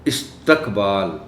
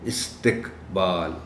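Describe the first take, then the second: First: The t is followed by a short a. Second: The t is followed by a short i. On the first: The speaker calls it wrong. "ते पर आमतौर पर ज़बर का इस्तेमाल कर दिया जाता है" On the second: The speaker calls it right. "सही तलफ़्फ़ुज़"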